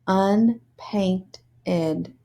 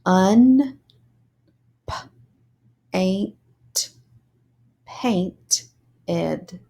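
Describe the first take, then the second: First: Said in the usual way. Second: "Un- p- ain't paint ed" broken into syllables; sounded out syllables. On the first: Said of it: "put it together to read it as a word". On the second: Shown as a demonstration. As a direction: sound out unpainted piece by piece. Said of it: "sound out the syllables".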